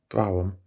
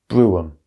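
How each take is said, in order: First: The word is said with hesitation and stumbling. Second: The word is said clearly without stumbling. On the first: The speaker calls it wrong. "I struggled a little bit with that word" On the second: The speaker calls it right. "The word should be pronounced brougham"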